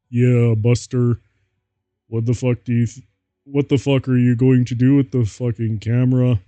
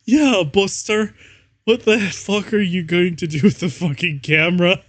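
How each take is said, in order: First: Moist Critical voice. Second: High, loud put-on goth voice; mock angry vampire. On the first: Acted. Reader redoing Draco's camera line in a Moist Critical voice. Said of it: "I'm gonna try and do a Moist Critical voice". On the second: Reader voicing the vampire yelling about the camera. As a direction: snarl it like a cartoonish goth vampire. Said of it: "Vampire shooted angrily".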